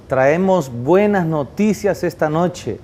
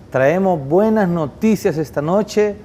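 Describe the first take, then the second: No difference in how they are said.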